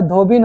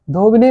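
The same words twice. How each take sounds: First: धोबिन said as two syllables, dho-bin, ending on n; the correct धोबिन, with no final vowel; correct form. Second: धोबिनी said with a short i before the final नी, as dho-bi-nee; the wrongly spelt धोबिनी, with the extra i sound; wrong form. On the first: Teacher giving the class the right form, धोबिन. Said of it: "धोबिन होता है बाबू". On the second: Teacher showing a student's mistake, saying धोबिनी. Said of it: "धोबिनी नहीं होता है". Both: Shown as a demonstration.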